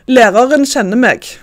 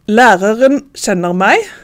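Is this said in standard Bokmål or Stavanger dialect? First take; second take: Stavanger; Bokmål. First: It is said in Stavanger dialect pronunciation. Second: It is said in standard Bokmål pronunciation.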